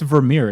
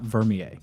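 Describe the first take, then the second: First: The name is said the Dutch way. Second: The name is said the French way. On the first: The speaker calls it right. "it's actually Vermeer" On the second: The speaker calls it wrong. "Vermeer would be like uh, French or something like that"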